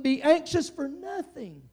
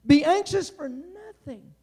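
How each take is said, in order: First: "Be anxious for nothing" drawn out slow and high; quoting the apostle, slow and raised; slow scripture quote. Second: "Be anxious for nothing" slow, higher and louder, each word pressed; preacher repeating the verse, louder; emphatic repeat. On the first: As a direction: lift it up, slowly, as scripture. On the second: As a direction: drive it home the second time. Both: Shown as a demonstration. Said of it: "the apostle said".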